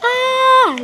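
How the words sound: The word is said at a high pitch. The speaker feels happy. "itu diucapkan dengan nada tinggi melambangkan rasa gembira"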